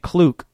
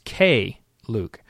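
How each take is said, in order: First: The K is blended into one syllable. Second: The K is said as a separate letter. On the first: The speaker calls it wrong. "I was calling it Kluke all from the moment I got it" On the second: The speaker calls it right. "there's a period there, and it's K Luke"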